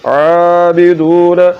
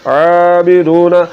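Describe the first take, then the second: No difference in how they are said.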